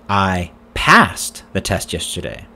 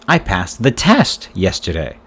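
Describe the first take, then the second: First: The word 'passed' carries the main stress. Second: The word 'test' carries the main stress. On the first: It says the test was passed, not failed. "Did you fail the test yesterday?" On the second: It says what was passed. "What did you pass yesterday?"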